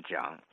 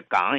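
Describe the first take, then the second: First: "桨" with a j onset, not g; local reading of 港. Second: Said in the usual way. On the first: Shown as a demonstration. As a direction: say 港 as "桨", jiǎng. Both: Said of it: "这港也读成桨".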